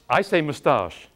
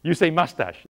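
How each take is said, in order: First: "moustache" said the British way, muh-STAHSH; British pronunciation. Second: "mustache" said the American way, MUS-tash; American pronunciation. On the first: English actor comparing words with American class, British "moustache". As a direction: say "moustache" with a long British ah, stress at the end. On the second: English actor echoing his American class, American "mustache". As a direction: say "mustache" American, stressed first syllable, short a. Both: Shown as a demonstration.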